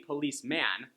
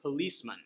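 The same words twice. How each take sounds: First: The last syllable has a full 'man' vowel. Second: The last syllable is reduced to 'mun'. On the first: The speaker calls it wrong. "it's not going to be policeman" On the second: The speaker calls it right. "People are going to say policeman. So you hear the mun"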